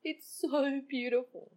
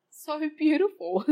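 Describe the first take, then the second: First: Tearful joy. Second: Slow and higher, laughing with joy; joyful, laughing. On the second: To her dog's love, a slow joyful laughing voice. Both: Real, not acted. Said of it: "I am actually really full of joy".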